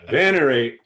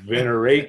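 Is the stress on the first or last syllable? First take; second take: first; last. First: The stress is on the first syllable. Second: The stress is on the last syllable. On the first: The speaker calls it right. "It's on the first syllable" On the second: The speaker calls it wrong. "they put the emphasis on the last syllable"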